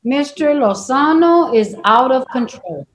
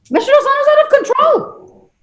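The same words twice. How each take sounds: First: Said in the usual way. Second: Much higher, stress on out; pitched-up outraged repeat; exasperated emphasis. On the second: Real, not acted. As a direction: hit out hard in disbelief. Judge repeats verdict, second louder.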